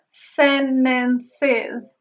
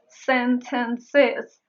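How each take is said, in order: First: The t after n is silent. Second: The t after n is pronounced. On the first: "I said sentences" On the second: "instead of sentences"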